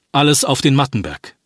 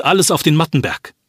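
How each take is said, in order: First: Said in the usual way. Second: Raised, urgent rallying cry; urgent call. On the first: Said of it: "So heißt plötzlich die Parole". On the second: Acted. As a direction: push them to move now. Urging villagers to flee.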